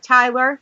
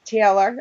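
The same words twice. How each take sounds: First: "Tyler", with TIE as the first syllable; name misread as "Tyler", rhyming with "miler"; mispronounced name. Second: "Taylor", first vowel as in "day"; careful repeat of "Taylor", rhyming with "sailor"; corrected name. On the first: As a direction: say Taylor as "Tyler", first vowel like "eye". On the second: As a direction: say "Taylor" with TAY as the first syllable. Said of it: "Yeah, it's Taylor". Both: Real, not acted.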